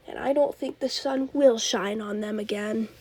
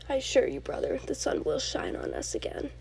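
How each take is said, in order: First: Said in the usual way. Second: A hushed, lowered take on Loki's farewell; quoting Loki. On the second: Retold or imitated. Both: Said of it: "That's a really good quote".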